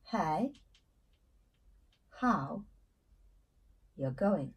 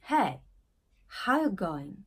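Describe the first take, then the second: First: Hey, how, you going spaced out slowly with long pauses; slow word by word. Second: How you going blurred into one easy flow; casual American greeting. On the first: Teacher spells out the greeting for learners, slow word by word. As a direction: break the greeting into separate slow words. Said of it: "ça c'est une différence majeure". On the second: Teacher shows students the casual greeting, run together. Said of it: "Vous pouvez dire". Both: Shown as a demonstration.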